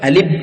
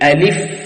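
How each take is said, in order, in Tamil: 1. இந்தச் சொல் p ஒலியில் முடிகிறது. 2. இந்தச் சொல் நீட்டிய f ஒலியில் முடிகிறது. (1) "பி சவுண்ட்" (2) "அந்த ஃபாவுல கொஞ்சம் டைம் கொடுக்கணும்"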